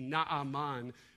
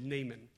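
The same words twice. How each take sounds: First: The name is said in a careful, original-style pronunciation. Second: The name is said in a Southern Californian pronunciation. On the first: The speaker calls it right. "maybe the more correct pronunciation would be Naaman" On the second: The speaker calls it wrong. "I grew up in Southern California, so we're going with Naaman"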